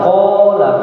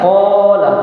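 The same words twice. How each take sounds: No difference in how they are said.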